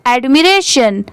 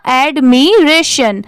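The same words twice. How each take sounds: First: Said in the usual way. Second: "एडमिरेशन" slowly split as ad, mi, ration; syllable by syllable. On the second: Shown as a demonstration. Teacher builds the whole word from parts, "एडमिरेशन" syllable by syllable. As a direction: sound out "एडमिरेशन" in stretched, separate parts. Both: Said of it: "पूरा क्या हो जाएगा?".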